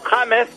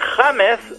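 First: The name is pronounced the English way. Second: The name is pronounced the Spanish way.

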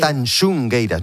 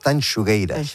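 First: An extra n sound comes before the g. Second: No n sound comes before the g. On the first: The speaker calls it wrong. "gente que dice" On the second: The speaker calls it right. "No, es Tanxugueiras"

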